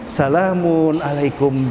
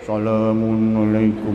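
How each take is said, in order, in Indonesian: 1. Diucapkan dengan cara yang cerah, sambil tersenyum. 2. Diucapkan dengan cara yang murung, tanpa senyum. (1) "Sambil tersenyum" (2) "diucapkan dengan wajah yang M C C ... nggak cocok"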